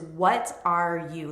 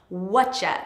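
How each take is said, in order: First: Each of the three words is said in full. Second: The words blend into one short ch-sounding word.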